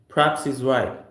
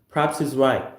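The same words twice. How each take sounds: First: He is is contracted into one syllable. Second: The same.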